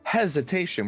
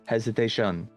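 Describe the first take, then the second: First: The stress falls on the first syllable. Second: All syllables get even stress. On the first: "where you put the emphasis on hes" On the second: "It's like all even"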